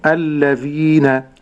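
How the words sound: The word is said in its connected form. "في حال الوصل"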